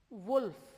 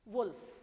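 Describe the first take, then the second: No difference in how they are said.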